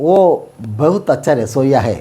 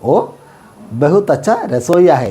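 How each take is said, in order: First: The first word is reduced to a short 'o'. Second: The same.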